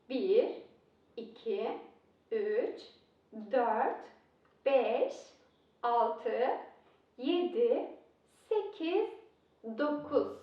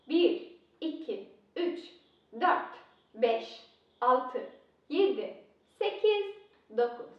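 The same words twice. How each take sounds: First: The numbers are counted at a slower pace. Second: The numbers are counted at a faster pace.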